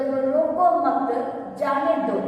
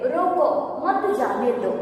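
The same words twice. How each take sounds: First: "रोको मत", a breath, then "जाने दो"; pause after मत. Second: "रोको", a breath, then "मत जाने दो" together; pause after रोको. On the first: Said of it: "रोको मत" के बाद हम थोड़ा सांस लेंगे". ("रोको मत" के बाद थोड़ा ठहरकर "जाने दो") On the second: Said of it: "रोको" के बाद हम थोड़ा सांस लेते हैं". ("रोको" के बाद ठहरकर "मत जाने दो") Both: Shown as a demonstration.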